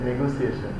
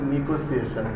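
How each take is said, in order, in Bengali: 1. প্রথম সিলেবলে 'eh' স্বরধ্বনি আছে। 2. প্রথম সিলেবলে 'ee' স্বরধ্বনি আছে। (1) "ইংরেজি একটা শব্দ আছে নেগোসিয়েশন" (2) "বেশিরভাগ মানুষই কিন্তু নিগোসিয়েশন বলে"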